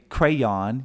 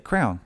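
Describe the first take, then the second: First: The word is said with two syllables. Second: The word is said as one syllable. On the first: The speaker calls it wrong. "So you don't say crayon" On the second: The speaker calls it right. "you just say crown"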